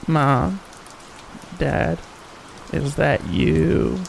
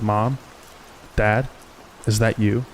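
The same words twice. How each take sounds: First: It is said in a mocking old hag's voice. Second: It is said in a normal, frightened voice.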